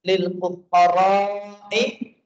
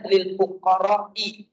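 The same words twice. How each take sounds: First: The vowel before the hamza is drawn out long. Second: The vowel before the hamza is held short. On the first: The speaker calls it right. "dipanjangkan fuqara" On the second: The speaker calls it wrong. "dipendekkan oleh dia"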